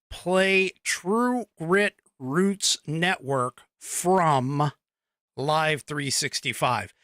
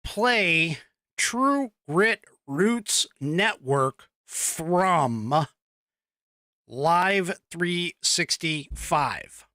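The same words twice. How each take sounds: First: Slow, deliberate voice command; slow spoken command. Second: Slow, evenly spaced voice command to Alexa; slow spoken command. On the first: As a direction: say it slowly so Alexa catches it. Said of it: "you have to say". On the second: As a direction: spell out each word slowly for the device. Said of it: "the key with that one is you have to say". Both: Shown as a demonstration.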